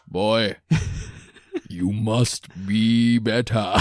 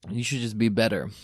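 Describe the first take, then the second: First: It is said in an impression of Kratos. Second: It is said in his normal voice.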